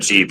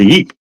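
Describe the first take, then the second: First: The word begins with a J sound. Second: The word begins with a Y sound. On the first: The speaker calls it wrong. "that's actually pronounced wrong" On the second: The speaker calls it right. "They're Yeeps"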